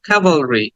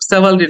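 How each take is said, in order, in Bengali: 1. শব্দটি 'k' ধ্বনি দিয়ে শুরু। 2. শব্দটি 's' ধ্বনি দিয়ে শুরু।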